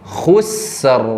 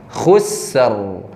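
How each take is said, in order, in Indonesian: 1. Kata ini diakhiri dengan bunyi r yang jelas. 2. Kata ini diakhiri dengan bunyi r yang jelas.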